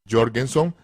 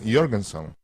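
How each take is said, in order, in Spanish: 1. El nombre empieza con sonido J. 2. El nombre empieza con sonido Y.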